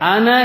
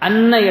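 First: The n sound is short. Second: The n sound is held long. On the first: It means the speaker claims to be the messenger. The speaker calls it wrong. "அன என்று சொல்லிவிட்டேன் என்றால் நான் சாட்சி கூறுகின்றேன், நான் தான் Muhammad" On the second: It introduces what is testified: that Muhammad is the messenger. The speaker calls it right. "அன்ன இடத்துல"

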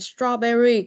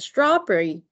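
First: The berry part is spoken slowly and fully. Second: The berry part is reduced and spoken quickly. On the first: "nếu mà không đọc nhanh được á thì phải đọc là strawberry" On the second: "còn nếu như mà đọc đúng á phải là strawberry"

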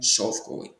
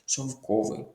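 First: The stress falls outside the second syllable. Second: The stress falls on the second syllable. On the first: The speaker calls it wrong. "а не шовковий" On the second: The speaker calls it right. "Наголос на другий склад"

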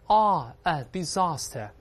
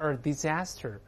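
First: It is said with a British accent. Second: It is said with an American accent. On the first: "当然英国人读成disaster" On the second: "美国人把它disaster"

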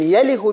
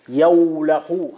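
First: The w is dropped and the ending is -ih. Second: The w is kept and the ending is -ah. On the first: This is the irregular form. "يله بكسر اللام" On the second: This is the regular form. "يوله على وزن يفعل"

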